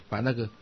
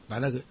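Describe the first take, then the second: The two takes are said the same way.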